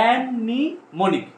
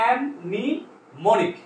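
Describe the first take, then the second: Both takes have the same delivery.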